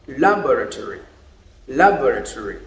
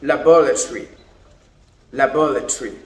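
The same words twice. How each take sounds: First: Laboratory with stress on lab and a full tory ending; laboratory as American LAB-ruh-tor-ee. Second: Laboratory with stress on bor and a clipped ending, la-BOR-a-tree; laboratory as British la-BOR-a-tree. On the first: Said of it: "The Americans say". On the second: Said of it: "But the British say". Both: Shown as a demonstration.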